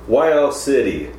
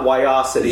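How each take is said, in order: First: City is said clearly as a separate word. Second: The name is run together into one word. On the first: The speaker calls it right. "I also like how you pronounced it" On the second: The speaker calls it wrong. "don't rhyme it with a word"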